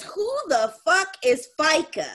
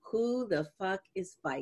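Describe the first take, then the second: First: High-pitched indignant outburst; mock outrage. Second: Softer, at everyday pitch; subdued retold quote. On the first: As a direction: imitate an outraged daughter seeing the paycheck. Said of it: "mad as hell". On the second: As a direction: repeat the outraged line quietly, as a punchline. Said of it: "I will never forget".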